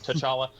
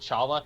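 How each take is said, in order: First: The name starts with a T sound. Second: The name starts without a T sound. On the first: "they were calling him T'Challa" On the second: "I've always thought that the T was silent"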